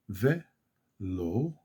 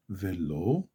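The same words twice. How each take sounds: First: ולא very slowly in two parts, ve, lo; slowed down. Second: Said in the usual way. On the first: Shown as a demonstration. Teacher slows it for learners, ולא as ve, pause, lo. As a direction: break ולא with a long pause after ve. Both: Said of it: "back, slow it down".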